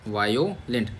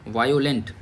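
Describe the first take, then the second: First: The word begins with a 'vye' sound. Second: The word begins with a 'vye' sound.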